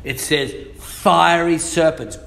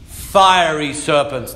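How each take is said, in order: First: "fiery" stressed again in a level voice. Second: "fiery" drawn out slowly and weighted; stress on fiery. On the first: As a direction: repeat "fiery serpents" with emphasis. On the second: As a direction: lean hard on "fiery". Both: Shown as a demonstration. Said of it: "The Bible doesn't say snakes".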